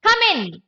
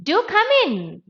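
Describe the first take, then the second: First: Brief high-pitched order; unsoftened command. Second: High, less forceful invitation; softened command. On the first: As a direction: call them in with a quick command. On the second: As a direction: ease the order into an invitation. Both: Shown as a demonstration. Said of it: "Soften the tone".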